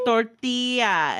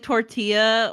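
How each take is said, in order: First: Drawn-out tortilla with Spanish r and stressed TI; corrected Spanish pronunciation. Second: Slow tortilla with an English r; anglicized pronunciation. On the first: Retold or imitated. Apologizing to her people, tortilla in careful Spanish pronunciation. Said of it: "You need to learn how to roll your R's". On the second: Shown as a demonstration. Admitting how she says it, tortilla with English sounds. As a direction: say tortilla the American way, stretched out. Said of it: "I'll say, like".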